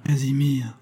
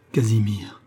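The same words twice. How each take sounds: First: Voiced, higher, a catch of grief; pleading grieving call; broken voice. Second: Whispered, voice breaking with grief; grief-stricken whisper; broken murmur. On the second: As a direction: breathe his name through tears. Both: A narrator's reading. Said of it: "murmure d'une voix entrecoupée".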